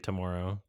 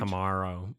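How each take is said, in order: First: The middle syllable sounds like 'mor'. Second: The middle syllable sounds like 'mar'. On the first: "it makes me obviously Canadian when I say tomorrow" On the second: "Americans say ... Mar like like it's spelled with an A"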